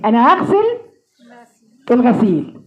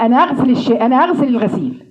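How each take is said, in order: First: أنا أغسل with a clear h before أغسل, as in هاغسل; h added. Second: أنا أغسل with no h sound at all; Egyptian dropped h. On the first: Teacher showing where the missing h belongs. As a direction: say أنا أغسل with a breathed h in front. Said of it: "اسمعي معايا تاني". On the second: Teacher imitating everyday Egyptian speech that drops the h. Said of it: "الهاء عند المصريين في ذمة الله". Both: Shown as a demonstration.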